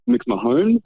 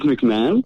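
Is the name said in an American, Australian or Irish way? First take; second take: Irish; American. First: It is said the Irish way. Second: It is said the American way.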